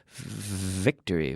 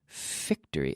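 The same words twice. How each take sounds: First: The first sound is voiced with buzzing vocal cords. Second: The first sound is a voiceless F-like hiss.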